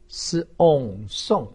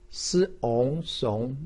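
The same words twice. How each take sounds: First: The pitch falls sharply from high. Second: The pitch rises from mid to high. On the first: "四声" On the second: "二声"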